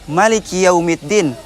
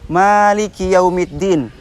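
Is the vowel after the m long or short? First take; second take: short; long. First: The vowel after the m is kept short. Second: The vowel after the m is held long. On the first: "dengan tidak memanjangkan ma" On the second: "yang memanjangkan harful ma-nya"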